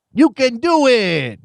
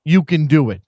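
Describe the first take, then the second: First: Higher, slower hint of the Waterboy cheer; mock Waterboy cheer. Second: Said in the usual way. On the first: Host imitating Rob Schneider's Waterboy line, mock cheer. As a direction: lightly imitate the cajun cheerleader bit. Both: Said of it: "who says".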